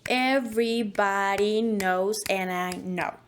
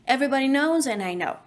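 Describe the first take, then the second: First: It is said with a clear, exaggerated beat. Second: It is said with an ordinary, natural rhythm. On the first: "make it clearer and a little bit exaggerated" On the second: "I normally say it"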